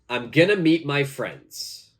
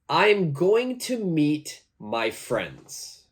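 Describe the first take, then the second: First: "Going to" is reduced to "gonna". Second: "Going to" is said in full.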